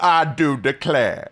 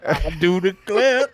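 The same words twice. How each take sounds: First: Slow southern drawl; mock southern gentleman; southern accent. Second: Slow, louder southern drawl; southern accent. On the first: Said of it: "hit me with the "I do declare". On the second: Pretend. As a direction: ham up a genteel southern lawyer. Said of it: "if I say it in this southern accent".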